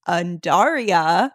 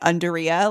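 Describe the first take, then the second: First: The first part does not sound like 'underwear'. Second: The first part sounds like the word 'underwear'. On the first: The speaker calls it right. "but it's Undaria" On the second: The speaker calls it wrong. "I kept calling it Undaria, like it's underwear"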